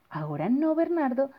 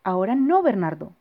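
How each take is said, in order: First: Said in the usual way. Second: Put-on loud, brushing the child off; dismissive parent. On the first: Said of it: "de David Meek". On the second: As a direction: tell him not now, busy and curt. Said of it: "dijo su papá".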